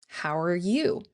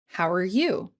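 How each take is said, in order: The two takes are said the same way.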